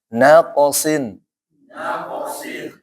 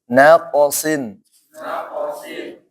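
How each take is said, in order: Both takes have the same delivery.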